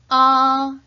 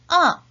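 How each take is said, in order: First: The pitch stays high and level. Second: The pitch falls sharply from high to low. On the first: "일성은 높고 평평하게" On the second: "사성은 높은 음에서 아래로"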